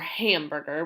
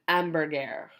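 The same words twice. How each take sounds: First: The word begins with an audible H sound. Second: The word begins with a silent H sound. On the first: The speaker calls it wrong. "We don't say ha dog or hamburger" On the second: The speaker calls it right. "We don't have that H in there. We say hot dog and hamburger"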